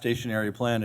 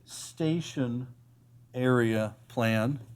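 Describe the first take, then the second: First: It is said fast, running words together. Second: It is said at a normal, careful pace.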